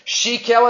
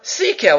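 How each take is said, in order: First: The word begins with an 'sh' sound. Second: The word begins with an 's' sound. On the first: He threw his hands without thinking. "you could read it as a shin" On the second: He acted with wisdom. "or you could read it as a sin"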